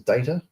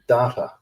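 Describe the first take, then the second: First: Data is said the non-Australian way. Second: Data is said the Australian way. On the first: The speaker calls it right. "the rest of the world says data" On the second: The speaker calls it wrong. "Australians pronounce incorrectly, like data"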